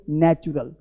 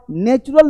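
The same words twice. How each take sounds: First: नेचुरल with open short "nat", dropping lower; correct pronunciation. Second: नेचुरल with a long "nay" first syllable; wrong pronunciation. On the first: Teacher gives learners the right form, corrected. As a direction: say नेचुरल as "NATCH-ural", softly falling. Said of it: "क्या बोलते हैं?". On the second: Teacher shows what not to say, mispronounced. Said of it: "नेचुरल नहीं बोलते". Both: Shown as a demonstration.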